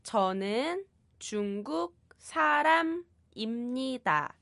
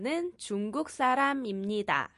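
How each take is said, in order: First: The sentence is said at a normal pace. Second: The sentence is said quickly.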